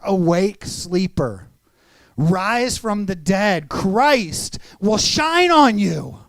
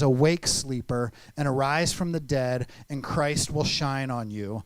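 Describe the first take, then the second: First: It is said loudly, almost shouted. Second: It is read in a normal speaking voice.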